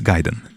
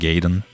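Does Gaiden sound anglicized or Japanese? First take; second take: Japanese; anglicized. First: The word is given a Japanese pronunciation. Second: The word is given an anglicized pronunciation. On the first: The speaker calls it right. "It's Gaiden, obviously" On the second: The speaker calls it wrong. "please stop saying Ninja Gaiden"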